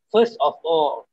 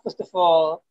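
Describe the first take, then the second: First: Each word is said separately. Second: The words run together into one unit. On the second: "tapi digabung"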